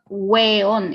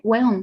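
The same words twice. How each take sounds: First: The word is said slowly and fully. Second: The word is said very fast. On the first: The speaker calls it wrong. "it's not weón" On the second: The speaker calls it right. "it's like weón, weón. Super fast"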